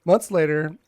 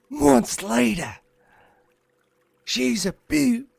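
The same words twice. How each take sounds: First: Said in the usual way. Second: High, drawn-out mock Australian accent; broad fake Australian, pitched way up; Steve Irwin. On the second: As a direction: ham it up as a slow, excited Aussie croc hunter. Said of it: "you cannot say ew to Steve Irwin".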